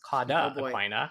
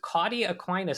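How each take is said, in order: First: The term ends without an s sound. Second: The term ends with an added s sound. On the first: The speaker calls it right. "It's Cauda-Aquina" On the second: The speaker calls it wrong. "you should say it correctly"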